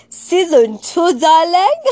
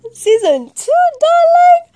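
First: Higher, louder teasing call; sing-song hype; excited sing-song. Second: Very high, loud squeal on darling; shrieking diva hype; squealed tease. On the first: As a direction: tease the fans with it. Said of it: "excited teasing announcement". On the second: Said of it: "squealed repeat". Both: Real, not acted.

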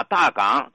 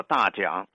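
First: Said in the usual way. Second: 大港 said locally as "大桨", dà jiǎng; "大桨" with jiǎng replacing gǎng; local pronunciation. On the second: Shown as a demonstration. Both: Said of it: "当地人把大港读作大桨".

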